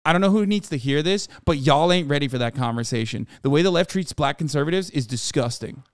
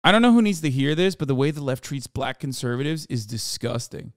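First: Quoting the tweet in a put-on black voice; lightly voiced African American accent. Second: Reading a tweet in a put-on black voice; a light put-on African American accent. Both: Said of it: "I read this in his black voice".

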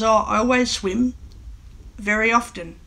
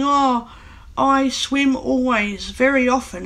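First: Said in the usual way. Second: Slower, drawn-out learner's English; imitating non-native speaker. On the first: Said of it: "The way you meant to say it for English is". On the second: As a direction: lightly mimic a German speaker's word order. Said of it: "you hear some German-speaking English people saying".

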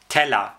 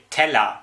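The two takes are said the same way.

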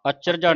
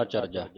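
First: ਅਚਰਜਾ run together as one word; wrong pronunciation. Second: ਅਚਰਜਾ with the ਅ set apart, "a charja"; separated first vowel. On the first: Teacher shows the misreading, ਅਚਰਜਾ as one joined word. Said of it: "ਅਚਰਜਾ ਨਹੀਂ ਪੜ੍ਹਨਾ ਇਹਨੂੰ". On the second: Teacher models it for the student, ਅਚਰਜਾ with separate ਅ. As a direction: detach the opening ਅ in ਅਚਰਜਾ, softer and lower. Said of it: "ਐੜਾ ਵੱਖਰਾ ਲਾਉਣਾ". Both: Shown as a demonstration.

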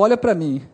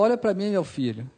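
First: Firmer, more forceful request; firm retold insistence. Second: Soft, calm request; retold serene father. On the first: Father holding his son who cannot look, firm insistence. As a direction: press him to look, without shouting. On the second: Serene sick father answering his upset son, softly composed. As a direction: keep it quiet and composed. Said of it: "normal, sereno".

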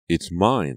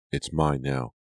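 First: Raised-voice claim, stress on "mine"; a restrained shout of possession. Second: Contained, stubborn claim; insistent. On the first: Scarred girl claiming her body, shouting. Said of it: "the girl shouted". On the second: Sharon keeping the stolen body, insistent. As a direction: insist without raising the voice. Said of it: "Sharon insisted". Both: A narrator's reading.

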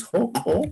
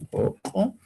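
First: "joko" begun with a rasped Spanish J; variant with J. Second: "joko" with the first consonant dropped, starting on O; variant without J. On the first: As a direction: sound the initial J in "joko". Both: Shown as a demonstration. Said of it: "otros dicen joko".

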